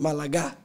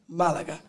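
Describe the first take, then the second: First: The stress is on the last syllable. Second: The stress is on the first syllable. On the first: The speaker calls it wrong. "If the accent was on the end A" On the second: The speaker calls it right. "the first A has an accent"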